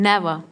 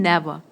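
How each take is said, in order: Both takes have the same delivery.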